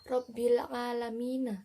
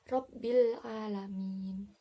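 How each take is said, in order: First: The final word ends with an 'a' vowel. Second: The final word ends on a consonant. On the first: The reader continues without stopping. "contohnya seperti seperti bacaan" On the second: The reader stops at this point. "jika ada tanda baca wakaf itu dibaca"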